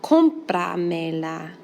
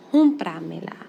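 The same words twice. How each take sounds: First: Cómpramela, slowed down with the first syllable CÓM stressed; slow stressed demo. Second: Said in the usual way. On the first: Shown as a demonstration. Teacher slowly modelling the accent for the class. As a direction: drag it out, landing on CÓM in Cómpramela. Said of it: "Now you count back four vowels". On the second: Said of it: "count back four vowels".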